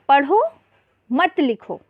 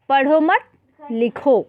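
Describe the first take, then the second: First: There is a pause right after the first word. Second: There is a pause right after the second word. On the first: Read, but do not write. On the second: Do not read, but write.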